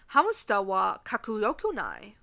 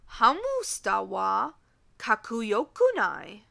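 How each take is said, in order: First: The sentence is said at a normal pace. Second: The sentence is said at a slower pace.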